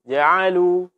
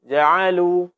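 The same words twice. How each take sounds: Both takes have the same delivery.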